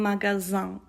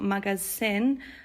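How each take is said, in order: First: The middle consonant is a buzzing Z sound. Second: The middle consonant is a hissing S sound. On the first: The speaker calls it right. "It's like a Z sound" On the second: The speaker calls it wrong. "the S sound is not like S in English. It's not magasin"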